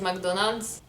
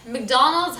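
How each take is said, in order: First: McDonald's said Lebanese-style, a bit French; Lebanese pronunciation. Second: Said in the usual way. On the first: Shown as a demonstration. Vlogger showing how Lebanese say McDonald's, French-tinged Lebanese accent. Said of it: "maybe it sounds a bit French". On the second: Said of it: "how we say it is".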